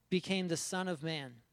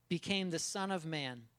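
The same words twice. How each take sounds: Both takes have the same delivery.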